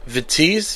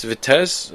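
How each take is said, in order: First: "Vitesse" said vi-TEEZ, ending in a long ee and z; unsure pronunciation. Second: "Vitesse" said vi-TESS, short e and s ending; second guess at "Vitesse" as vi-TESS, softly questioning; unsure pronunciation. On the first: Host guessing the Dutch club's name, unsure, "Vitesse" as vi-TEEZ. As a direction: try "Vitesse" as vi-TEEZ, quietly questioning. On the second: Host retrying the Dutch club's name, unsure, "Vitesse" as vi-TESS. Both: Shown as a demonstration. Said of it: "I don't know".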